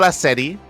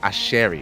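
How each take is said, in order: First: The middle consonant is a plain 's' sound. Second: The middle consonant is an 'sh' sound. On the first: The speaker calls it wrong. "It's not Aseri" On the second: The speaker calls it right. "it's pronounced Asheri. ... It's a S H sound"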